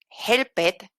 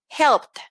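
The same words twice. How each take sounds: First: The ending is pronounced as an extra syllable. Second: The ending is pronounced as a t sound. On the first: The speaker calls it wrong. "en lugar de decir" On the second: The speaker calls it right. "voy a imaginar que esta ed es una T"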